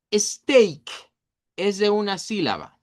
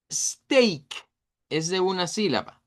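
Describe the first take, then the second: No difference in how they are said.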